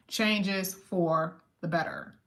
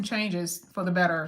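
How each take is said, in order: First: "Changes for the better" slowly, each part set apart; emphatic. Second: Said in the usual way. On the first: Shown as a demonstration. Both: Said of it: "Let's just make sure we emphasize that".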